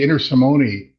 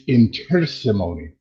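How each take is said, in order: First: The stress is not on the T syllable. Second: The stress is on the T syllable. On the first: The speaker calls it wrong. "I used to say Inter Simone" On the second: The speaker calls it right. "with accent on the T"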